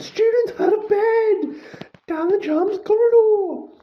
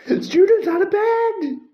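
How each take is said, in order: First: Even higher loud bellow; screeching alarm call, high and loud. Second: High, loud alarm bellow; bellowed high and loud, STUDENTS hit first. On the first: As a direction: shout it down the corridor for everyone. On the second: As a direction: raise the alarm at the top of the lungs. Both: A narrator's reading. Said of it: "Peeves bellowed".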